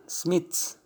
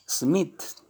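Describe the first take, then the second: No difference in how they are said.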